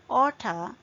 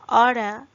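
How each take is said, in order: First: It is said with a British pronunciation. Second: It is said with an American pronunciation. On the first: "oughta is British" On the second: "Oughta is American"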